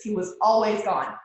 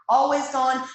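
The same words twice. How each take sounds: First: Said in the usual way. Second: Always gone pushed higher and louder; stress on always. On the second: Real, not acted. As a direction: hit always gone harder. Lonely years, husband away.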